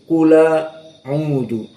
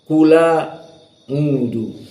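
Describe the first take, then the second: Both takes have the same delivery.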